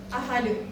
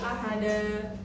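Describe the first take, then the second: First: The word ends on a bare d consonant. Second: The word ends with a long a vowel. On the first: The speaker calls it wrong. "ada juga yang menjadi ahad" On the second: The speaker calls it right. "seharusnya dibaca ahada"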